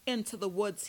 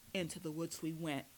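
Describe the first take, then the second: First: Louder, punched command; barked order. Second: Said in the usual way. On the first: A narrator's reading. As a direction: bark it like a captor giving orders. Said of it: "he barked".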